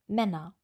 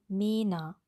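First: The first vowel is a short open ä. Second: The first vowel is a long closed e. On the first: The speaker calls it right. "Wir wollen Männer" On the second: The speaker calls it wrong. "im Kontrast üben mit dem langen E"

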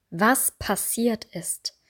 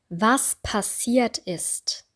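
No difference in how they are said.

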